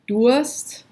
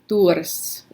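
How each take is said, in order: First: The r is soft and vowel-like. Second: The r is strongly trilled.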